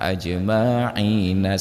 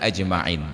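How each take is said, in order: First: The final n is followed by a vowel. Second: The word ends on the n. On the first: The speaker calls it wrong. "dihidupkanlah bunyi nun tersebut" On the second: The speaker calls it right. "seharusnya ajma'in"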